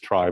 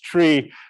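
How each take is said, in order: First: The word is said like 'try'. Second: The word is said like 'tree'. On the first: It avoids confusion with ordinary trees. "so I'll call this trie" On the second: It is the original pronunciation. "the true pronunciation is tree"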